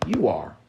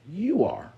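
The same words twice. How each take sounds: First: Said in the usual way. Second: Much higher, insistent second take; pitched-up emphatic echo; emphatic repeat. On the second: Acted. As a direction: throw it up high to drive it home.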